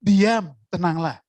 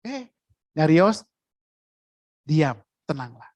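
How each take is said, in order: First: Slow, steady calming command; Jesus calmly ordering the storm to be still. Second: Jesus standing and hushing the wind; hushing command. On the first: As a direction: still the storm slowly and firmly. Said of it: "Yesus berkata di sana". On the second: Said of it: "Yesus berdiri". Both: Retold or imitated.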